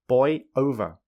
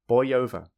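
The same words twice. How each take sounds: First: The two words are said separately. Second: A y sound joins the two words. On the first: "without linking" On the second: "with linking"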